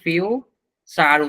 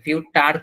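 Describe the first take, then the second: First: The middle consonant is a ch sound. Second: The middle consonant is a t sound. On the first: The speaker calls it right. "এই জায়গাটায় ফিউ চার উচ্চারণ করা হচ্ছে" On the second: The speaker calls it wrong. "ফিউ টার কিন্তু না"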